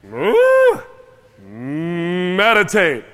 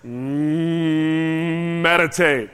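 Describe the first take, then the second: First: Sudden high loud "Mm" like a cow's moo before "meditate"; a loud mooing "Mm" leading into "meditate"; high loud moo then word. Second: Low hummed moo into meditate; a low cow hum leading into "meditate"; hummed moo then word. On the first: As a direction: jump way up on "Mm", then say "meditate" plainly. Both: Shown as a demonstration. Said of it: "I say it like this".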